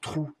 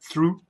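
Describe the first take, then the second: First: The word begins with a plain T sound. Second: The word begins with a TH sound. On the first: The speaker calls it wrong. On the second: The speaker calls it right.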